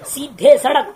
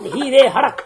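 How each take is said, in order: First: The words begin with an s sound. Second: The words begin with an h sound.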